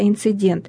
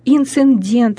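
First: No extra n sound appears in the middle. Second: An extra n sound appears in the middle. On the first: The speaker calls it right. "вместо «инцидент»" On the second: The speaker calls it wrong. "лишними, ненужными звуками"

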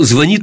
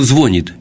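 First: The stress is on the second syllable. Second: The stress is on the first syllable. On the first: The speaker calls it right. "А сейчас" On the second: The speaker calls it wrong. "вот я раньше говорил"

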